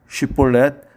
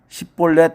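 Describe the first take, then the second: First: The word begins with an 'sh' sound. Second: The word begins with an 's' sound. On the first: The speaker belongs to the safe group. The speaker calls it right. "쉽볼렛 다 아는 말이지만" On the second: The speaker is from the enemy tribe. The speaker calls it wrong. "에브라임 사람은 발음이 안 돼서 십볼렛이라고 합니다"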